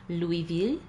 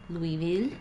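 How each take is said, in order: No difference in how they are said.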